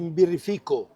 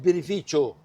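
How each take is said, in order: First: The word ends with a short 'koh' sound. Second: The word ends with a 'chee-oh' sound. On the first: The speaker calls it wrong. "the most common um, um, misspelling is that they, you say Birrifico" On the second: The speaker calls it right. "No, it's Birrificio"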